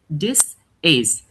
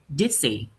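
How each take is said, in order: First: The two words are said separately. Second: The two words run together as one. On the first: "instead of saying this is" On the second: "you say dizzy"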